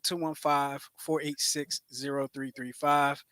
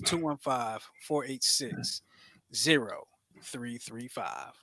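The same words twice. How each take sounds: First: The number is said at normal speed. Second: The number is said slowly.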